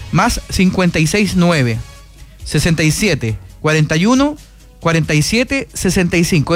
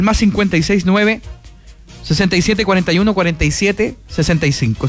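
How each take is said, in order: First: It is said a bit more slowly. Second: It is said at normal speed.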